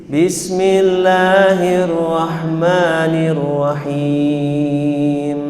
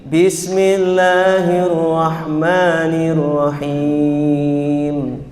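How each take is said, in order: The two takes are said the same way.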